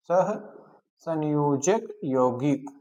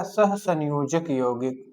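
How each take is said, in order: First: "सहसंयोजक यौगिक" drawn out slowly with breaks between parts; slow, word by word. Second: Said in the usual way. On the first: Shown as a demonstration. Teacher repeating a new term for students, "सहसंयोजक यौगिक" slow and broken up.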